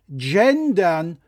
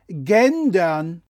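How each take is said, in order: First: The word starts with an English soft J sound. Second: The word starts with a German hard G sound. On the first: The word is treated as an English loanword. The speaker calls it right. "Das heißt Gendern" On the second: The word is read as if it were German. The speaker calls it wrong. "und nicht Gendern"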